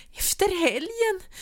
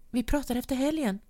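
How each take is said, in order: First: "Efter helgen" cried out very high and loud, slowly, with a sob; crying outburst. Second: Said in the usual way. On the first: A narrator's reading. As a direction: throw "helgen" back at him sobbing. Wife echoes in disbelief.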